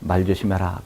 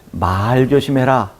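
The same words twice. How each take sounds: First: The vowel of the first word is kept short. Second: The vowel of the first word is held long. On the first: Watch out for the horse's hind legs. "저 말들이 뛰어오니까 저 뒷다리 조심하라" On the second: Be careful about what you say. "언행을 조심하는 것이고"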